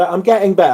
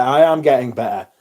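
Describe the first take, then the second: First: Said in the usual way. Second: "am" leaned on, insisting; stress on am. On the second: Real, not acted. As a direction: push the word "am" to insist you are improving. Repeats line stressing am.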